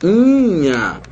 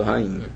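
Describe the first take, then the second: First: RAINHA split, the I high and held; separação do hiato. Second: Said in the usual way. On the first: Shown as a demonstration. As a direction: stretch rainha as ra-Í-nha, stressing the I. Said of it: "era pra ser assim". (rainha separado, com o I forte e agudo) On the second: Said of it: "mas não é acentuado".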